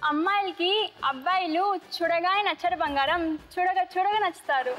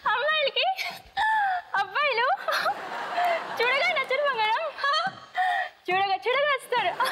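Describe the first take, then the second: First: It is said plainly, without strong emotion. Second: It is said while laughing uncontrollably.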